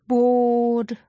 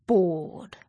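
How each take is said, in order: First: A louder, exasperated bored; fed-up bored. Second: Bored. said low, sinking and deflated; sulky bored. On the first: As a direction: groan the word Bored. out in boredom. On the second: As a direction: let Bored. droop down low. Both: A narrator's reading. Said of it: "Zoe was bored".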